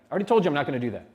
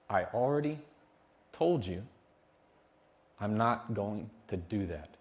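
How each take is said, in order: First: It is said fast and heated. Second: It is said slowly and calmly.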